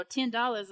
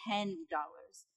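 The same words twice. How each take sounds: First: Put-on TEN said in a Long Beach accent, close to "tin"; higher, louder TEN DOLLARS with the vowel nearer "tin"; natural Long Beach accent. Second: TEN said carefully with a clear short "eh" vowel; corrected pronunciation. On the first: Niece saying it her own way to her aunt, Long Beach accent. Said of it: "I'd be like, you know". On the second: Retold or imitated. Aunt correcting her niece's accent, carefully pronounced TEN with "eh". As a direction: model TEN DOLLARS in careful standard speech. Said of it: "then she'd be like".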